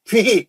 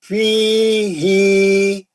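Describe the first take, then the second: First: The first vowel is cut short. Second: The first vowel is held for two counts. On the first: The speaker calls it wrong. "हम लोग कैसा पढ़ते?" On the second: The speaker calls it right. "दो रकत पढ़ना है।"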